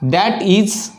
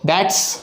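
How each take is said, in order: First: Both words are said fully and separately. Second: The words are reduced and run together.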